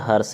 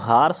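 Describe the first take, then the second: First: The first vowel is short. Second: The first vowel is long. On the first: "ए रा जो है रेफ का उच्चारण ही दे रहा है" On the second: "आ की मात्रा के सेंस में"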